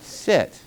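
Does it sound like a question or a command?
command. It sounds like a calm, firm command.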